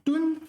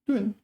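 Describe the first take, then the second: First: It is said with a high level tone. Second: It is said with a falling tone. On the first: "first tone" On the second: "I've always said fourth tone"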